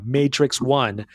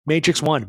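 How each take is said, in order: First: "Matrix One" said slowly and deliberately, each word drawn out; clarifying "Matrix One" slowly for podcast listeners; slow, spelled out. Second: Said in the usual way. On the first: Shown as a demonstration. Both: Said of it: "You're not looking at me right now".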